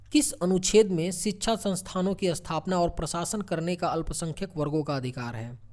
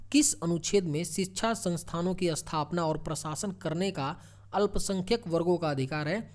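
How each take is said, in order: Both takes have the same delivery.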